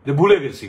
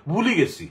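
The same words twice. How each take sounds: First: Said in the usual way. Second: "ভুলি গেছি" with Sylheti vowel, ভুলি not ভুলে, in Sylheti accent. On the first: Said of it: "সিলেটের ওই সিলেটি অ্যাকসেন্টে ফাউরিলিসি না কইয়া কইব". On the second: Shown as a demonstration. Showing listeners how Sylhetis say "ভুলি গেছি", Sylheti accent. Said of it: "Sylheti অ্যাকসেন্টে ... কইব".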